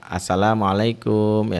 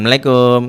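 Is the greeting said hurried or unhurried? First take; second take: unhurried; hurried. First: The greeting is said slowly and carefully. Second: The greeting is said fast and rushed. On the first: The speaker calls it right. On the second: The speaker calls it wrong.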